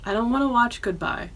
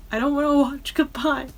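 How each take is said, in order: First: Said in the usual way. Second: Half-mock upset pleading; whiny upset. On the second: Real, not acted. Upset fan refusing to watch the Spice Girls video, high whiny plea. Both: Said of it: "I can get emotional about it".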